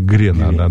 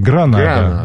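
First: The first vowel is an 'e' sound. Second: The first vowel is an 'a' sound. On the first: This is the nineteenth-century form of the name. "В транскрипции 19 века говорили «Гренада»" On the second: This is the modern form of the name. "правильно говорить «Гранада»"

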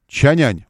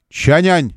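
First: The second syllable starts with a 'y' sound. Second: The second syllable starts with a 'y' sound.

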